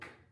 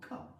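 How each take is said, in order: First: The consonant ends cleanly with no vowel after. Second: The consonant is followed by an added 'uh' vowel. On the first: The speaker calls it right. "Rather than going" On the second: The speaker calls it wrong. "they go"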